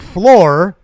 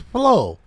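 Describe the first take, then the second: First: The word ends with a clear R sound. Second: The word ends without any R sound. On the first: "instead of saying floor" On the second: "R was missing in floor"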